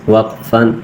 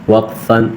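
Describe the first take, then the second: The two takes are said the same way.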